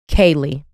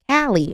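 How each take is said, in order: First: The first syllable sounds like 'kay'. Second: The first syllable does not sound like 'kay'. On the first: The speaker calls it right. "K A Y phonetically" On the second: The speaker calls it wrong. "I'm wrong"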